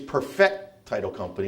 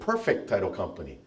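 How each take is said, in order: First: The stress in 'perfect' is on the second syllable. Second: The stress in 'perfect' is on the first syllable. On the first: The company works to fix flawed titles. The speaker calls it right. "which means you got to find out what's wrong in order to know how to fix it" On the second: The title is flawless. The speaker calls it wrong. "People used to pronounce it"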